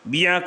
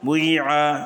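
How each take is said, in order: First: The first vowel is a pure 'i' sound. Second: The first vowel is mixed with an 'u' sound.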